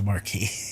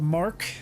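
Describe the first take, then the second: First: It is said as two syllables, mar-kee. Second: It is said as one syllable, mark. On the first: The speaker calls it wrong. "not the Marquis" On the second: The speaker calls it right. "So it is the Mark"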